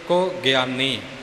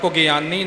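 First: The word has a slight break after ku. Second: The word is said joined as one unit. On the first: The speaker calls it right. "ਪਰ ਕੁਗਿਆਨੀ ਨਾ ਹੋਵੇ" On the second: The speaker calls it wrong. "ਕੁਗਿਆਨੀ ਇਕੱਠਾ ਨਹੀਂ ਕਹਿਣਾ"

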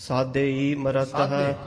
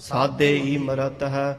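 The two takes are said the same way.

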